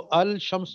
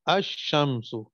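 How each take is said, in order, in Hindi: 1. 'sh' से पहले ल की ध्वनि साफ़ बोली जाती है। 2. ल गिरा दिया जाता है और 'sh' दोहरा हो जाता है। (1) "इसको अल शम्स नहीं पढ़ेंगे" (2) "बल्कि क्या पढ़ेंगे, अशम्सु"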